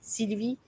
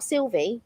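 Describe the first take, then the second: First: The name is said with a French pronunciation. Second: The name is said with an English pronunciation. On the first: The speaker calls it right. "I would say it as it's supposed to be said" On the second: The speaker calls it wrong. "But whereas other will go"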